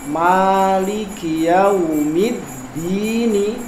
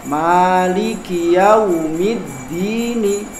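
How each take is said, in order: Both takes have the same delivery.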